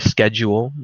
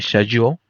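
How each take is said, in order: First: It is said the American way. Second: It is said the Pakistani, British-style way. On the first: "like Americans say" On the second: "we say schedule"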